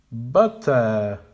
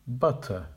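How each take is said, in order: First: "Butter" with both syllables loud and full; incorrect, too strong. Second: "Butter" with a soft schwa ending; correct, weak ending. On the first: Teacher modelling the wrong "Butter". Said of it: "the incorrect pronunciation". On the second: Teacher modelling the correct "Butter". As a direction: keep the second syllable of "Butter" light. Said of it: "Make the weak syllables quiet". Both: Shown as a demonstration.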